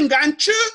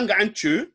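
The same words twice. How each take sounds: First: The word is said with a high tone. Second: The word is said with a rising tone. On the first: The speaker calls it right. "C'était Ngantche" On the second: The speaker calls it wrong. "Ce n'était pas un ton montant que ou. Ce n'est pas Ngantche"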